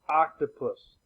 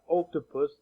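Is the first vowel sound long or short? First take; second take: short; long. First: The first vowel is a short O sound. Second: The first vowel is a long O sound. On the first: The speaker calls it right. "The short O" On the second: The speaker calls it wrong. "Not octopus"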